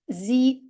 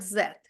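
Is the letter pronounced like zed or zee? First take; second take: zee; zed. First: The letter is pronounced like zee. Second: The letter is pronounced like zed. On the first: This is the American name of the letter. "я сказала «зі»" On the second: This is the name listeners are used to hearing. "а ви чули цю літеру як «зет»"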